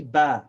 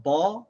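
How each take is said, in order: First: Ba with an open Arabic a, said firmly; correct Arabic Ba. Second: Ba with an English-style vowel, the wrong way. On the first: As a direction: give Ba its proper Arabic accent. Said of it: "with the proper accent". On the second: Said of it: "not Ba". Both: Shown as a demonstration.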